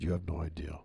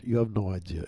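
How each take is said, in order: First: Repeated in a lower, softer voice; low quiet aside. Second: Said in the usual way. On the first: Shown as a demonstration. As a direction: lower and softer, under the breath.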